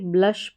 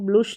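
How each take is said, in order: First: The vowel is a short 'uh' sound. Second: The vowel is a rounded 'oo' sound. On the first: The speaker calls it right. "ब्लश पढ़ना है" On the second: The speaker calls it wrong. "इसको ब्लुश नहीं पढ़ेंगे"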